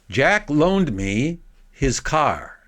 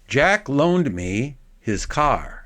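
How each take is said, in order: No difference in how they are said.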